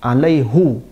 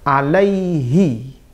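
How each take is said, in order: First: The word ends in an 'oo' vowel. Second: The word ends in an 'ee' vowel. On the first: It conveys how heavy and difficult the event was. "dibiarkan dhammah" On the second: It is the normal, lighter grammatical form. "harusnya harakatnya kasrah"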